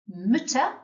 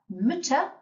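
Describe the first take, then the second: Both takes have the same delivery.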